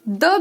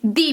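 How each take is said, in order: First: The word ends in a short 'uh' vowel. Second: The word ends in a long 'ee' vowel. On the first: "कभी कभी हम इसे द भी बोलते हैं" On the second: "कभी कभी हम इसे दी भी बोलते"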